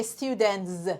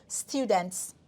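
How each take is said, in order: First: "students" with a forced buzzing z ending; hard-to-say students. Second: "students" ending in an easy hissed ts; natural students. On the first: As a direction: force a voiced z after the t in "students". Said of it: "It's very hard to say students". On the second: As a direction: finish "students" with a simple unvoiced ts. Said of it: "just say it". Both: Shown as a demonstration.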